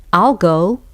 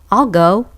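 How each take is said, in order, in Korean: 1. 'will'은 줄어서 I에 붙어서 발음해요. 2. 'will'은 줄어서 I에 붙어서 발음해요.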